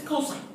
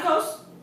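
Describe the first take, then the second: First: The word is said in full with three syllables. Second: The word is clipped to a single short syllable. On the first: The speaker calls it right. "This is cosine" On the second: The speaker calls it wrong. "This is not a cos"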